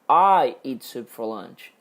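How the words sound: The word "I" carries the main stress. It is the speaker, not someone else, who eats soup. "eu estou enfatizando que eu tomo sopa no almoço. Não é outra pessoa"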